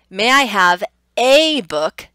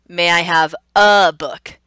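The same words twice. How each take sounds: First: The word 'a' is said as 'ay'. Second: The word 'a' is said as 'uh'. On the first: "So that top one is a" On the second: "The bottom one is uh"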